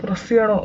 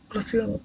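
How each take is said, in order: First: Said in the usual way. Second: Much softer repeat, under the breath; muttered to himself. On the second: Real, not acted. A gamer muttering the question to himself, much softer. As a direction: say it again almost to yourself.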